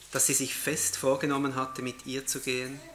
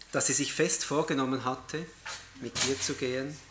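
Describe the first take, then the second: The two takes are said the same way.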